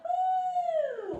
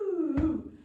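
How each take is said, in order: First: The voice sweeps up into a high pitch. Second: The voice sweeps down into a low pitch. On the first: The voice follows a ball going up. "if it goes up" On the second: The voice follows a ball rolling on the floor. "if I miss it ... helps warm up our lower voice"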